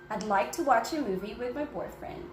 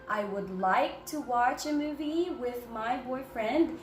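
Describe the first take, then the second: First: The words 'I would' are contracted to one. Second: The words 'I would' are said in full. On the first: The speaker calls it right. "We better say, ... that sounds a little faster" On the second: The speaker calls it wrong. "instead of saying"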